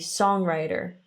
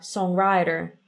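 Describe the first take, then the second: First: The stress falls on the usual syllable. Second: The stress falls on an unusual syllable. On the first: The speaker calls it right. "invece di songwriter" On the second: The speaker calls it wrong. "mette l'accento della parola dalla parte sbagliata"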